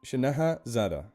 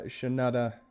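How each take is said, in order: First: "Shanaha Zada" in full, every syllable sounded; careful name reading. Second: "Shanada" with the middle "ha" dropped; botched name reading. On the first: Streamer getting a viewer's name right, carefully saying "Shanaha Zada". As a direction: read out "Shanaha Zada" carefully as two names. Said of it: "I wanna get your name right". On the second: Streamer thanking a viewer, botching the name as "Shanada". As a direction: stumble on the name, saying "Shanada" a syllable short. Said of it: "I swear I said it right the first time". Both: Real, not acted.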